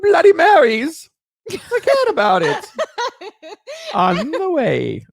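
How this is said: It is read in a put-on character voice. "Madam Whisker Biscuit's voice would be"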